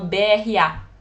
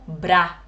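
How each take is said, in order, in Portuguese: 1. É lido letra por letra. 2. É lido como uma única palavra. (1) "A abreviação é B R A" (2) "Vai ler isso como B R A. E não está correto"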